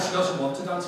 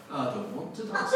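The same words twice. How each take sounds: First: Said in the usual way. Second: Put-on small-child refusal in Yorkshire accent. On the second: Wee girl refusing to dance, in Yorkshire accent. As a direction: imitate a stubborn Yorkshire toddler. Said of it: "Sheffield is in Yorkshire".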